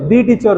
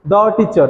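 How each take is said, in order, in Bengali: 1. 'The' শেষ হয় একটি দীর্ঘ 'ee' স্বরধ্বনি দিয়ে। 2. 'The' শেষ হয় একটি ছোট 'uh' স্বরধ্বনি দিয়ে। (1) "ଦି ଟିଚର ନୁହେଁ" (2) "ଦ ଟିଚର ହେଲା"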